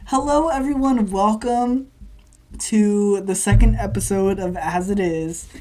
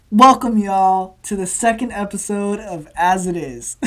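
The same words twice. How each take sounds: First: First-take podcast intro. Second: Announcer-like opener on the edge of laughter; redone podcast intro. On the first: Real, not acted. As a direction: greet the listeners and open the episode. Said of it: "I didn't like the way that I introduced myself". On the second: Shown as a demonstration. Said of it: "so I'm just gonna redo it".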